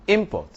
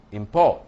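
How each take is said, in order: First: "import" punched high on IM; stress on first syllable. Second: "import" punched loud on PORT; stress on second syllable. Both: Shown as a demonstration. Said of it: "is in the placement".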